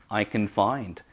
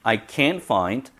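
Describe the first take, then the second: First: "can" reduced to kuhn, "find" stressed; weak, quick "can" leading into "find"; unaccented can. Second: "can't" stressed with a full vowel; accented can't. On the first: Teacher drills the positive, weak "can", strong "find". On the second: Teacher drills the negative, strong "can't". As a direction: put the accent on "can't", not only "find". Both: Shown as a demonstration. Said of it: "그러면 구별해 봅시다".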